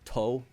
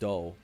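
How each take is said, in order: First: The word starts with a T sound. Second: The word starts with a D sound. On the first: The speaker calls it right. "instead of to" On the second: The speaker calls it wrong. "he'll say do instead"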